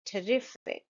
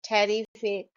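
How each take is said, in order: First: Terrific softly, as "tuh-RIF-ic" with schwa first; correct pronunciation. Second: Terrific said "TARR-ee-fic" with a full first vowel; common mispronunciation. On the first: Shown as a demonstration. Teacher correcting Terrific, schwa then stressed RIF. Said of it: "It's not that". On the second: Retold or imitated. Teacher imitating learners' terrific with full first vowel. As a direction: open up the first syllable of terrific. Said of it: "I've heard a lot people saying".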